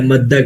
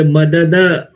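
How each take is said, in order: First: مدہ with both د fused into one held d; merged double dal. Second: مددہ slowly, each د given its own vowel; two separate dals. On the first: Teacher showing students the form after merging, doubled dal. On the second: Teacher showing students the form before merging, two separate dals. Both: Shown as a demonstration. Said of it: "دو دال کو ملا دیتے ہیں".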